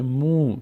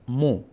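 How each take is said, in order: First: مو as long "muu"; long vowel. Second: مو as short "mo"; short vowel. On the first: Teacher strengthens mim with vav, long "muu". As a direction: draw out the oo in مو. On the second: Teacher says mim on its own, short "mo". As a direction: say مو with a brief o. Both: Shown as a demonstration.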